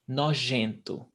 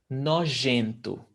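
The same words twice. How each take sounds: No difference in how they are said.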